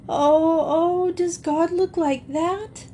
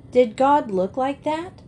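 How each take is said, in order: First: High-pitched wailing question, rising at the end; tearful wail. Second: Said in the usual way. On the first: A narrator's reading. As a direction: wail it in dismay, far above your usual pitch. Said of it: "she wailed".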